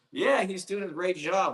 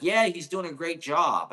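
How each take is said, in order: First: High, disbelieving repeat of "Yeah, he's doing a great job"; mock echo. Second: A hint of the sweet nurse, "Yeah" lifted higher and louder; quoting the nurse. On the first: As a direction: parrot it back with incredulous irony. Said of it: "Like, who, I didn't". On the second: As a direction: lightly voice the nurse saying "Yeah, he's doing a great job" as cheerful praise. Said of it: "She's like".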